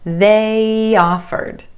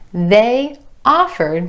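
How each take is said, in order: First: The two words are joined by a Y glide. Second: The two words are said separately, without a glide.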